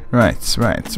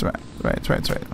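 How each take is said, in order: First: Said in the usual way. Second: Right, right trailing into an unvoiced whisper; right, right whispered to nothing; fading whisper. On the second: Real, not acted. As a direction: let right, right fade away to a whisper. Fading out while playing.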